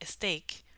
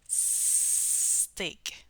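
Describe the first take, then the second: First: A short vowel comes before the S. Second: It starts directly with the S. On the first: The speaker calls it wrong. "we're not going to say a steak" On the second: The speaker calls it right. "we're going to say steak"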